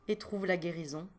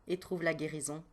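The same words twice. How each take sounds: Both takes have the same delivery.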